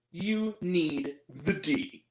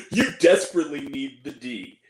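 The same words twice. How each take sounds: First: Slow, soft come-on, a touch seductive; mock-seductive movie line; sultry quote. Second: Mock-insistent movie line; pushier quote. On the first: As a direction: drag it out low and slow like a bad pickup line. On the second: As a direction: lower and louder, leaning on it. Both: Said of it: "She turns to her and says".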